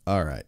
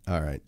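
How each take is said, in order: Both takes have the same delivery.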